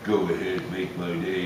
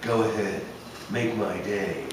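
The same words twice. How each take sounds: First: A gritty voice at a much lower pitch. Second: A gritty voice at a moderately higher pitch. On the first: The speaker calls it right. "Bring the pitch down" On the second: The speaker calls it wrong. "clench your teeth together and think of think of Dirty Harry"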